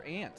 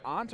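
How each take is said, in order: First: "aunt" pronounced just like the insect "ant"; "aunt" rhyming with "pant". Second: "aunt" pronounced like "ahnt", open vowel; "aunt" rhyming with "haunt". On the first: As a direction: say "aunt" with a short flat a. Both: Shown as a demonstration. Asks which of two pronunciations.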